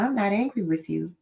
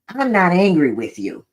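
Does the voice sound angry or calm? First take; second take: calm; angry. First: The voice is quiet and sounds calm. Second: The voice is raised and sounds angry. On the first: The tone matches the words. The speaker calls it right. "Versus screaming or raising my voice and saying the same thing" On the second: The tone contradicts the words. The speaker calls it wrong. "My tone of voice and even my body language doesn't really convey the words"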